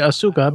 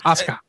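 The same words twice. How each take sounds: First: The middle u vowel is fully pronounced. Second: The middle u vowel is quick and nearly silent. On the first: The speaker calls it wrong. "I would think it'd be Asuka" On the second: The speaker calls it right. "the U was like a very silent, quick one"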